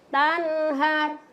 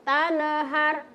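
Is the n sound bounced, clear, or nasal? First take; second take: clear; bounced. First: The n is plain and clear, flowing on. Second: The n gets a bounce with an extra vowel. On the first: The speaker calls it right. "yang penting ya jelas" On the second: The speaker calls it wrong. "Tidak boleh mau kasih-kasih pantul"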